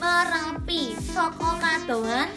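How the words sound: The voice is nasal, pushed from the throat. The speaker calls it wrong. "Kalau tenggorokan nanti bakal bindeng ya, misalnya"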